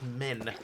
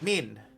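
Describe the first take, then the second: First: The word is said with a non-New Zealand vowel. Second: The word is said with a New Zealand vowel. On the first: "instead of men" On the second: "quite a lot of Kiwis, Kiwis will say men"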